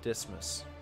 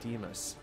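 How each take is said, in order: First: The middle S sound is clearly pronounced. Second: The middle S sound is left out. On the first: "Dismas just doesn't sound right" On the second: "Maybe you're not supposed to, uh, to pronounce the S. I feel like Demas"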